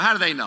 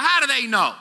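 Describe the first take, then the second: First: Said in the usual way. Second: Bewildered question. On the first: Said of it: "You know, how do they know?". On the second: Retold or imitated. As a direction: play the baffled doubter. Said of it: "I'm like".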